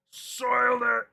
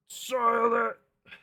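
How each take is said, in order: First: High, loud mock despair; dramatic wail. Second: High, loud, dragged-out despair; slow dramatic wail. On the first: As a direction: wail it like a ruined villain. Hammed dismay, repeated. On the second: Pretend. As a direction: stretch the wail out slowly. Repeated, slower.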